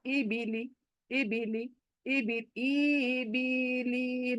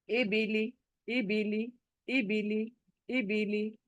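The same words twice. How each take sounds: First: ई बी ली drawn out slowly, swaying and soft; sway the ई बी ली vowels, the wrong way; wobbly majhul vowels. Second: ई बीली said short and soft, no stretch; crisp short vowels. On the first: Teacher demonstrating the wrong wobbling reading. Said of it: "इस तरह से मजहूल होकर". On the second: Teacher modelling the correct short reading. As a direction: keep every vowel of ई बीली quick. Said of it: "जल्दी से अदा करना है". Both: Shown as a demonstration.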